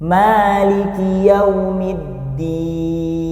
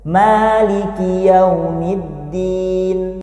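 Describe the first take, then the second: First: The final long vowel is held very long. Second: The final long vowel is held briefly. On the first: "atau enam harokat"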